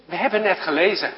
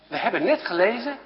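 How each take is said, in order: Both takes have the same delivery.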